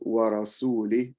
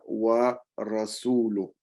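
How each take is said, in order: First: An 'i' vowel follows 'rasul' in the word. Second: No 'i' vowel follows 'rasul' in the word. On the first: God disowns the unbelievers and the prophet alike. The speaker calls it wrong. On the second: The prophet also disowns the unbelievers. The speaker calls it right.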